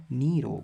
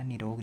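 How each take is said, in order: First: Long "nee" opening निरोग; long first vowel. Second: Short "ni" opening निरोग; wrong short first vowel. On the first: Teacher repeating the correct form, long first vowel. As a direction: draw out the ee in निरोग. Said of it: "निरोग होता है". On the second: Teacher repeating the wrong form, short first vowel. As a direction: keep the first i of निरोग brief. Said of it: "ऐसे वाला निरोग नहीं होता". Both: Shown as a demonstration.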